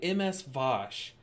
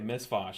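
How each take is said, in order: First: The first part is spelled out as two letters. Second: The first part is said as one word, miss. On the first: "I'm just gonna say M S Vosh" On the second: "It's Miss Vosh though"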